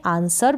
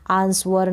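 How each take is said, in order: First: आंसर with a silent w, ans-er; correct pronunciation. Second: आंसवर with a clear w sound, ans-war; teacher says आंसवर to show the wrong way, sounding the w; wrong pronunciation. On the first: Teacher demos the right आंसर, w silent. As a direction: say आंसर with no w between s and the vowel. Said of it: "correct pronunciation होता है इसका आंसर". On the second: Teacher demos the wrong आंसवर, w sounded. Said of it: "इसको आप आंसवर ना पढ़ें". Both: Shown as a demonstration.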